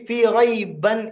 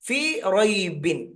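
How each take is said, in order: First: The vowel after the b is a. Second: The vowel after the b is i. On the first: The speaker calls it wrong. "ചില ആളുകൾ എന്ത് ചെയ്യുന്നു വെച്ചാൽ ... ഫീ റൈബൻ എന്ന് പറയും, റൈബൻ അല്ല" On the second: The speaker calls it right.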